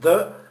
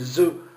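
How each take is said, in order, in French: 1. Le mot commence par un son th, la langue entre les dents. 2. Le mot commence par un z sonore. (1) "au lieu de dire" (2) "si je dis"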